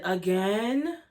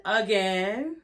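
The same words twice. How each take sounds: First: Mocking "again". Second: "Again" dicho con subida burlona; mocking "again". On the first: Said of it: "Malaysia said". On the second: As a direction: alarga "Again" con tono fastidiado. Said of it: "repeated sarcastic again".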